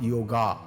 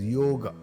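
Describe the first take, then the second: First: The final vowel is a long ah sound. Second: The final vowel is short, not drawn out. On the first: The speaker calls it wrong. "not a long ah sound. It is not yoga" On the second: The speaker calls it right. "it is yoga"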